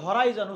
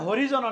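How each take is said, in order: First: The middle vowel sounds like eye. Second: The middle vowel sounds like ee. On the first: The speaker calls it right. "এটা হচ্ছে হরাইজন" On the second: The speaker calls it wrong. "এখানে হরিজন অনেকে বলে"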